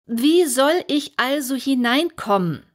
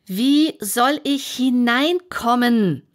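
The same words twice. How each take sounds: First: Raised, insistent question; Alice asks again, a little louder; a bit louder. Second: Louder and slower demand; Alice asks a third time, louder and slower; even louder. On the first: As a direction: ask again, somewhat louder. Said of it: "wiederholte sie etwas lauter". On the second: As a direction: stretch it out and push the volume. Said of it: "noch lauter als zuvor". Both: Acted.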